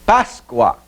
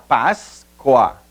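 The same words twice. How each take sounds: First: Said in the usual way. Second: "Páscoa" split as Pás, coa; "Páscoa" drawn out in two detached syllables. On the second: Shown as a demonstration. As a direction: separate the two syllables of "Páscoa" with a clear gap. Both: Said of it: "separação silábica".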